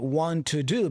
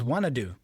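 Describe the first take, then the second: First: 'Want to' is said fully as two words. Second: 'Want to' is reduced to 'wanna'.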